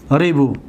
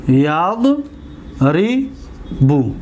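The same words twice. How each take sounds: First: Said in the usual way. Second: ریبو stretched very slowly, syllable by syllable; slow, drawn-out ریبو. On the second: Shown as a demonstration. Teacher drills students on a verb form, very slow. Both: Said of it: "دقت دادید؟".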